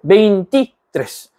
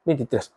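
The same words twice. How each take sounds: First: "veintitrés" broken as veinti, pause, trés; slow "veintitrés" with a gap before trés; split into parts. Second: Said in the usual way. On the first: Shown as a demonstration. Teacher showing learners it is a compound, veinti and trés apart.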